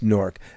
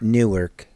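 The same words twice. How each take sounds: First: It is said with one syllable, Nork. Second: It is said with two syllables, New-ark. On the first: This is how locals in New Jersey say it. "our accent pronounces it as N O R K" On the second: This is how people in Delaware say it. "down in Delaware they say New- Newark"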